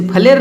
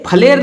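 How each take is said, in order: First: फ्लेयर with ph and l joined, "phle-yar"; correct pronunciation. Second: फ्लेयर split open, "pha-le-r"; wrong pronunciation. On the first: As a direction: blend the opening of फ्लेयर, glide on y. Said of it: "लेकिन पढ़ना है". (फ्लेयर, जोड़कर "फ्ले-यर") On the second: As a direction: add a vowel between ph and l in फ्लेयर. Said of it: "नहीं पढ़ना है". (फ्लेयर को गलत "फलेर" बोलें) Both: Shown as a demonstration.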